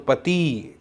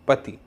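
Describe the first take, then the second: First: The final i vowel is long. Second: The final i vowel is short. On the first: The speaker calls it wrong. "पति ऐसा नहीं कहते" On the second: The speaker calls it right. "पति ऐसा कहते हैं"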